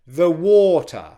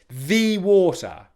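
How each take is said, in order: First: The word 'the' is weak and unstressed. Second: The word 'the' is stressed and strong. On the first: "it's quiet and unstressed, so we go the water" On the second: "unless you are intentionally saying the water"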